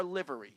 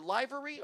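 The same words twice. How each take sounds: First: Livery with LIV as the first syllable; short-i pronunciation. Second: Livery with LIE as the first syllable; long-i pronunciation. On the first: Host checking the word with co-hosts, livery said LIV-ery. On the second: Host unsure of a word he gets wrong, livery said LIE-very. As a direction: say livery as LIE-very, rhyming with "ivory". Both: Shown as a demonstration. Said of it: "I always get this word wrong".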